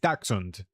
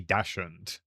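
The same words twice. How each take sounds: First: The word has its standard dictionary pronunciation. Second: The word has a nonstandard variant pronunciation. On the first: The speaker calls it right. "It's Dachshund" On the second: The speaker calls it wrong. "But I say I say Dachshund. But that's definitely not right"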